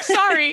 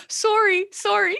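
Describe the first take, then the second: First: "Sorry" pitched high, said American "SAR-ee"; squeaky apologetic "Sorry" with an open "ah" vowel; non-Canadian "sorry". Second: "Sorry" high, with a rounded Canadian "SOR-ee"; cute mock-Canadian "Sorry", vowel as in "sore"; Canadian accent. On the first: Retold or imitated. Retelling her apology without the accent, high "SAR-ee" for "Sorry". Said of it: "I didn't have the cute Canadian accent". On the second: Teasing a Canadian co-host, playful Canadian accent on "Sorry". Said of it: "the cute Canadian accent".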